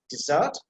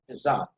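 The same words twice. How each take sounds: First: "desert" with short first vowel, weight on "-sert"; stress on second syllable. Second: "desert" with weight on "de", lighter ending; front-load the word "desert"; stress on first syllable. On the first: Teacher recapping the verb form, second syllable stressed. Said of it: "we find that this is verb". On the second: Teacher recapping the noun form, first syllable stressed. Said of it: "The pronunciation is like this". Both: Shown as a demonstration.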